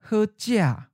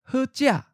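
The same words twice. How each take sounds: First: The first syllable falls from a high pitch. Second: The first syllable is high and cut short. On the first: "In the common southern accent, the eighth tone is often of a high falling tone" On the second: "High stop"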